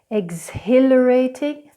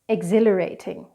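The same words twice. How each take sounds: First: The H in the middle is pronounced. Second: The H in the middle is not pronounced. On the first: The speaker calls it wrong. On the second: The speaker calls it right.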